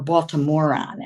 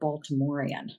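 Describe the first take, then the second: First: The word has a local Baltimore pronunciation. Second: The word has a standard, careful pronunciation.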